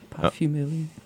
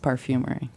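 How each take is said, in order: First: It is said with a French accent. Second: It is said with a plain English accent. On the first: "you could say it with a French accent if you want" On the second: "but it is parfumery"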